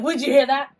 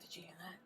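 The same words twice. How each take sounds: First: Louder, higher pretend panic; mock alarm. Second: Hushed, whispered alarm; mock spooked whisper. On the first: Ghost hunter startled by a cough, mock alarm. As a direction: overreact to a tiny noise. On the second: Ghost hunter to friend after a noise, pretend spooked whisper.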